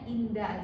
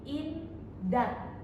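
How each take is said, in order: First: The word ends with an open a vowel. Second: The word ends with a t sound. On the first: "H-nya tidak sama sekali dibaca" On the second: "dia dibacanya menjadi indat"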